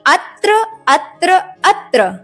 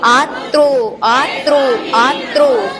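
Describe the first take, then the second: First: Each word starts short and ends in short 'a'. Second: Each word starts long and ends in 'o'. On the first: The speaker calls it right. "बल्कि अत्र अत्र अत्र" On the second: The speaker calls it wrong. "आत्रो आत्रो शब्द नहीं है"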